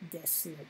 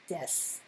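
First: The final u vowel is fully pronounced. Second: The final u vowel is dropped. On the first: The speaker calls it wrong. "not desu" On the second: The speaker calls it right. "pronounced des"

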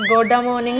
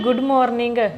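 First: The first word is said as 'goda'. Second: The first word is said as 'good'. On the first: The speaker calls it wrong. "ਗੋਡਾ morning ਨਹੀਂ" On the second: The speaker calls it right.

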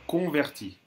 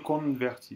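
First: The first vowel is nasal with no N sound. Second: An N sound is heard in the first syllable. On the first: The speaker calls it right. "On ne doit pas entendre le N" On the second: The speaker calls it wrong. "Vous avez dit un petit peu converti"

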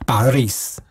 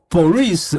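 First: The first vowel sounds like 'a'. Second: The first vowel sounds like 'o'. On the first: This is how Russians actually say it. The speaker calls it right. "俄文其实念巴利斯" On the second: This follows the written spelling. The speaker calls it wrong. "但是你拼的时候还是Boris"

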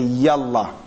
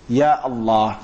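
First: The words run together without a glottal break. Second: A glottal break separates the words before Allah. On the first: It is used as a casual phrase. The speaker calls it wrong. "they miss out the A in that" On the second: It is a real call to God. The speaker calls it right. "the real way to call Allah"

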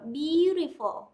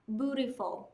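First: It is said with a British accent. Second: It is said with an American accent. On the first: "chúng ta vẫn thường hay đọc là beautiful" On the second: "Nhưng người Anh Mỹ sẽ đọc là beautiful"

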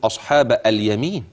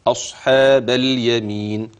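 First: A vowel is heard between the b and l. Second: The b runs straight into the l. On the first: The speaker calls it wrong. "اوعى تقول" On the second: The speaker calls it right. "من الباء في كلمة أصحاب إلى اللام الساكنة مباشرة"

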